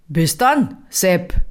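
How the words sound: It is said in a Bavarian accent.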